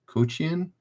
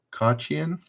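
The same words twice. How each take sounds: First: Kochian said as "KOH-chee-an", higher and softer; questioning pronunciation. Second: Kochian said as "KAH-chee-an", higher and softer; alternative pronunciation. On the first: Host unsure of a gymnast's surname, questioning "koh" pronunciation. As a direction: try Kochian with an "oh" vowel, rising. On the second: Host unsure of a gymnast's surname, questioning "kah" pronunciation. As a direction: try Kochian with an "ah" vowel, rising. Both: Shown as a demonstration.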